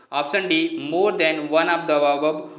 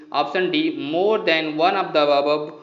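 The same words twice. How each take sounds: The two takes are said the same way.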